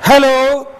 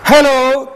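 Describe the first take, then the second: Both takes have the same delivery.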